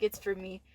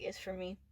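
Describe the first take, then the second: First: Said in the usual way. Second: Soft, low-key murmur of realization; quietly, as a private thought; said to oneself. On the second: Retold or imitated. Student realizing the office lady came for her, said softly to herself. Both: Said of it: "I called it out loud".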